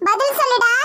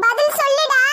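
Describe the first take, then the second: First: Half-laughing demand. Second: Insist, harder this time; angrier demand. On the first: Uncle demands the groom answer, with a bitter laugh. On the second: Uncle presses the silent groom, angrier. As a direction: stress on பதில், pressing hard for the answer. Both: Acted.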